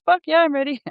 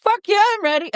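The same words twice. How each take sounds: First: High granny voice, FUCK hit hard; a cheeky old lady, up high; feisty grandma voice. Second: Put-on high, squeaky old granny saying it; old grandma voice. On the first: Retold or imitated. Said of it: "So, so the grandma says". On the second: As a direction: pitch it way up like a feisty grandma. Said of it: "the grandma says".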